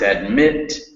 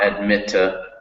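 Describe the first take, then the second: First: The word ends sharply on the final consonant. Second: An extra vowel syllable follows the final consonant. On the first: The speaker calls it right. "you really cut the word off" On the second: The speaker calls it wrong. "you added an extra syllable"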